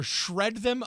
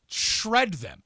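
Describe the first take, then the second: First: Said in the usual way. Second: SHRED punched higher, then falling on "them"; emphatic repeat. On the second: Shown as a demonstration. Co-host balking at the column's harsh advice, emphatic SHRED.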